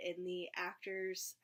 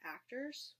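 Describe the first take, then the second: First: Said in the usual way. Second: "actors" higher and softer, rising at the end; questioning "actors". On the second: Real, not acted. Vlogger doubting her own word, "actors" as a rising question.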